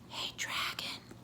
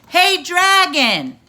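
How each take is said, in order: First: It is whispered very softly. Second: It is shouted very loudly.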